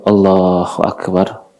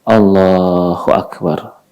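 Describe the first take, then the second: Both takes have the same delivery.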